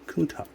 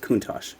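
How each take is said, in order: First: The name ends with a k sound. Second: The name ends with an sh sound. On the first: This is the proper pronunciation. The speaker calls it right. "but it's Kuntak" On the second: This is how most people say it. The speaker calls it wrong. "Everybody says Kuntosh"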